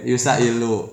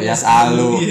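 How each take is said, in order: First: It is said as yusailu, starting with yu. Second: It is said as yasalu, starting with ya. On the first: The speaker calls it wrong. "Tadi kan dibaca Yusailu" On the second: The speaker calls it right. "Di sini udah mulai benar"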